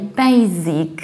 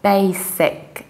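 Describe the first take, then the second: First: The middle consonant is a z sound. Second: The middle consonant is an s sound. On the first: The speaker calls it wrong. "there is no Z" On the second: The speaker calls it right. "there is S"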